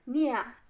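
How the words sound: It is said in an Australian accent.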